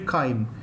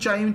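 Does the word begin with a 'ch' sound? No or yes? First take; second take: no; yes. First: The word does not begin with a ch sound. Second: The word begins with a ch sound. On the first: The speaker calls it right. "the actual pronunciation is actually chyme" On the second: The speaker calls it wrong. "That is the way I studied. So it's CH"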